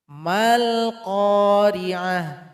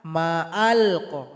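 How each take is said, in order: First: The m links straight into the l sound. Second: A glottal catch separates ma from al. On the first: The speaker calls it right. "mim ini langsung loncat kepada huruf lam" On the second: The speaker calls it wrong. "Salah kalau dibaca ma'al-qa"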